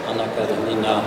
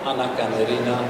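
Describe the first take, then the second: No difference in how they are said.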